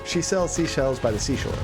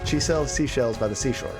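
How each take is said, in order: Both takes have the same delivery.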